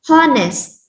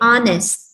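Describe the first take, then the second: First: It begins with an audible h sound. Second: It begins directly with a vowel sound. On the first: The speaker calls it wrong. "you are not going to read it as honest" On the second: The speaker calls it right. "you are going to silent the letter H. So you are going to say honest"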